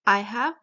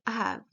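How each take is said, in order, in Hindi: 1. यह दो अलग-अलग पूरे शब्दों में बोला जाता है। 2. यह एक छोटे संक्षिप्त शब्द में बोला जाता है। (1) "आई एक अलग वर्ड है, हैव एक अलग वर्ड है" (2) "शॉर्ट फॉर्म बना दी गई है"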